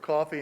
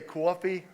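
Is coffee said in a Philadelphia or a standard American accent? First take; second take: standard; Philadelphia. First: It is said with a standard American accent. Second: It is said with a Philadelphia accent.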